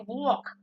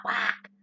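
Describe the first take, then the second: First: "walk" with a rounded aw vowel; Jersey pronunciation. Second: "walk" with an open, front ah; non-Jersey pronunciation. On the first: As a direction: say "walk" like wawk. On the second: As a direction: say "walk" like wack, no aw. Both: Shown as a demonstration. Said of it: "I say walk, not walk".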